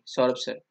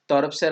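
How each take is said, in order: First: The name begins with an s sound. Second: The name begins with a t sound. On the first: This is the name as intended. The speaker calls it right. "तौरभ sir नहीं, सौरभ sir" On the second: This imitates someone who says s as t. The speaker calls it wrong. "वो स को त बोलता है"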